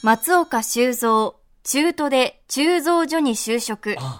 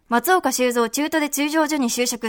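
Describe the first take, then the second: First: It is said at a normal, unhurried speed. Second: It is said quickly, at a rapid speed.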